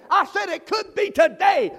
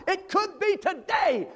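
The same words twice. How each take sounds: First: Louder shouted restatement of it could be today; shouted repeat. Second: Drawn-out high cry of it could be today; slow high call. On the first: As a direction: hit it harder the second time. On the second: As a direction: stretch each word up high. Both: Real, not acted.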